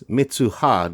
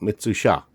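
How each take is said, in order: First: The middle consonant is a plain h sound. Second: The middle consonant is an sh sound. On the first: The speaker calls it right. "Her name is Mitsuha" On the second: The speaker calls it wrong. "not Mitsusha"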